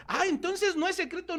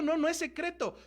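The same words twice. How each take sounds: First: High-pitched "ah, so that's it"; mock realization. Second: High but softer, settling reply; confirming answer. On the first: Preacher voices a listener finding it is no secret, mock realization. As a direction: act out a listener suddenly catching on. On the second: Acted. Preacher answers the listener that it is no secret, light confirmation.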